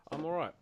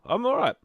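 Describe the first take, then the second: First: Said in the usual way. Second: Pitched way up and loud, mock chirpy; squeaky high I'm all right. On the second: Real, not acted. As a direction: chirp it out much higher and louder.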